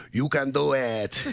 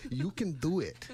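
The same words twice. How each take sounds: First: Slow, drawn-out comedy catchphrase; movie catchphrase imitation. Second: Softer first go at the catchphrase; movie catchphrase imitation. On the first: Host quotes Adam Sandler movies, slow goofy imitation. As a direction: stretch it out like a goofy film cheerleader. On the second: Host encourages nervous co-host, soft catchphrase imitation. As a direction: lightly imitate a comedy-film cheerleader, quietly. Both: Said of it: "Like they say in all those Adam Sandler movies".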